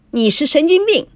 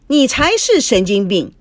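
First: High-pitched angry comeback; defiant retort. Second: Raised voice, stressed 才; even more defiant retort. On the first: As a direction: hurl the insult back, not backing down. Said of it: "孙娜也不甘示弱". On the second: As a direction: throw the insult straight back. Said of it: "司机更不甘示弱，回了一句". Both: A narrator's reading.

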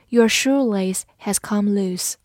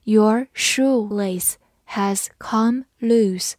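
First: Said in the usual way. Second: Drawn-out model sentence with pauses between words; slow reading. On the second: Shown as a demonstration. Teacher modelling the shoelace sentence for learners, slow reading. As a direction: read slowly, word by word. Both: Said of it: "我们慢读一遍".

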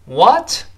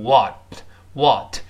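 First: British "what" with a small rounded "o"; British pronunciation. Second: American "what" with a wide, open vowel; American pronunciation. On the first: Teacher compares two accents, British "what" with rounded vowel. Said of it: "在英式发音中". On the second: Teacher shows the American version, slow open "what". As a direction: say "what" the American way, slowly, mouth more open. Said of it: "在美音中变大". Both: Shown as a demonstration.

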